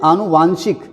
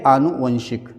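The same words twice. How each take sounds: First: आनुवांशिक with long "vaan"; wrong form. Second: आनुवंशिक with short "van"; long "aa" first, short "van" in आनुवंशिक; correct form. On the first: Teacher shows what many write, आनुवांशिक with long "vaan". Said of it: "वो भी गलत है". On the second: Teacher corrects the class, आनुवंशिक with short "van". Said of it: "सही है". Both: Shown as a demonstration.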